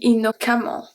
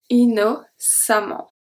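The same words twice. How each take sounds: First: The C is said as a K sound. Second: The C is said as an S sound. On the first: The letter after the C would be an A. The speaker calls it wrong. "If it was a A, an actual A, it would be innocemment" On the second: The letter after the C is an E. The speaker calls it right. "the C turned into a S"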